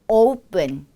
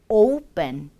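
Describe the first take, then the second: Both takes have the same delivery.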